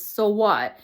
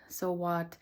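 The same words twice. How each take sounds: First: Loud, dismissive "So what?"; louder sneering "So what?" from the nagging voice; inner critic voice. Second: Softer, letting-go "So what?"; quiet, settled "So what?" that dismisses the critic; calm self-reassurance. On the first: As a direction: snap "So what?" loudly as the harsh inner critic. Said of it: "another voice that says". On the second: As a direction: let "So what?" fall gently, shrugging it off. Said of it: "And then finally saying". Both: Retold or imitated.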